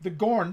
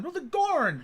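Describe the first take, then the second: First: Said in the usual way. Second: Gorn said higher and punched; emphatic correction. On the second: Shown as a demonstration. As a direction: shout the word Gorn.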